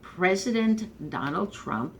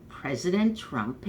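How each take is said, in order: First: Reluctantly forced out, slow. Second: Said in the usual way. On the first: Real, not acted. Unwilling fan grudgingly naming the president, slow and reluctant. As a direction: drag out President Donald Trump slowly, as if the words stick. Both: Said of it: "it kind of is a little hard to get those words out".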